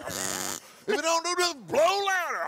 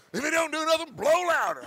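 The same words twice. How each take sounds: First: Higher, pushier repeat; more emphatic. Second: Said in the usual way. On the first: Shown as a demonstration. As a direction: push it harder the second time. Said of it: "repeated higher, more emphatic". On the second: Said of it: "advice, first time".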